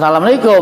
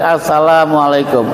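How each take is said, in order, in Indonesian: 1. Diawali tanpa bunyi artikel, salam. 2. Diawali bunyi artikel, as-salam. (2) "Pakai alif"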